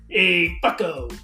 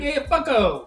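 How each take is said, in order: First: The greeting sounds harsh and nearly mean. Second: The greeting sounds friendly and casual. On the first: The speaker is insulting the listener. The speaker calls it wrong. "You can't say it like that, because that's like almost mean" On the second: The speaker is greeting the listener playfully. The speaker calls it right. "in a way where someone's like, hey, bro"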